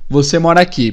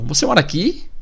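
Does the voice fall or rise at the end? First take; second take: fall; rise. First: The voice falls at the end. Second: The voice rises at the end. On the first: It is a statement. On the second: It is a question. "é só subir a entonação no final"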